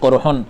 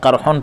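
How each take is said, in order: First: The first vowel is a rounded 'u' sound. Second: The first vowel is an open 'a' sound. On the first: This is one recognized reading of the word. "काफ़ के ज़म्मा यानी पेश के साथ पढ़ा है" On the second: This is the other recognized reading of the word. "फ़तहा यानी ज़बर के साथ पढ़ा है"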